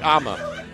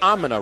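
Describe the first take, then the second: First: It is reduced to the short form I'mma. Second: It is reduced to the longer form I'm-a-na. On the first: This is the common, popular way to say it. The speaker calls it right. "IMA is the popular thing to say" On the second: This is an unusual personal habit. The speaker calls it wrong. "Not Amina"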